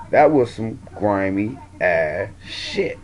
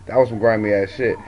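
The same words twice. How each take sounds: First: Dragged out, every word weighted; slow emphatic verdict. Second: Said in the usual way. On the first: Real, not acted. Vlogger condemning the women's plotting, slow and deliberate. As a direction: drawl it out slowly to drive it home.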